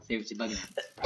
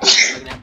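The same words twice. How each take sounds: First: Said in the usual way. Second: Louder, as if freaking out; loud panicky bugging out; loud freakout. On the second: Real, not acted. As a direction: blurt it loudly. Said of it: "I'm bugging out".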